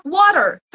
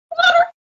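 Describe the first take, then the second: First: Said in the usual way. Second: "Water" jumping much higher, thrilled; excited recognition. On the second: Shown as a demonstration. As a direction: say "Water" like you finally caught it. ("Water" bem agudo, animado) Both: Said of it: "Você vai".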